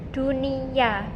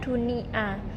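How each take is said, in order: First: A y glide comes before the final vowel. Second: No y glide comes before the final vowel. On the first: The speaker calls it right. "ada tambahan e, konsonan y sehingga dibacanya dunia" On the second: The speaker calls it wrong. "bukan dunia"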